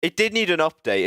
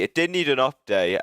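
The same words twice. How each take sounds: First: Did punched high in It did need an update; stress on did. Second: Said in the usual way. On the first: Shown as a demonstration. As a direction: lean hard on did, higher and louder.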